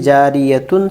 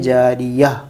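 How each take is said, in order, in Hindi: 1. अंत 'त' की आवाज़ और स्वर के साथ बोला जाता है। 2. अंत 'ह' की मौन आवाज़ के साथ बोला जाता है।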